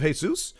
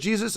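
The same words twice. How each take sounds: First: The name starts with a Spanish H sound. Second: The name starts with an English J sound. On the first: It is read as the common Mexican name. "instead of Jesus" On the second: It is read as the usual American name. "I read that as Jesus"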